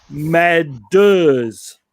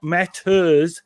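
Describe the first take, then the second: First: "matters" slowed, with a crisp spat-out T; "matters" said slowly, the T hit hard and clean; spit out the T. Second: "matters" said the usual way, T not spat out; wrong way. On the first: Showing the promo's right way to say "matters", crisp T. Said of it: "T's and D's, you have to spit out". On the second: Teaching the radio promo read, the wrong "matters", T blurred. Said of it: "the promo has to say not matters". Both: Shown as a demonstration.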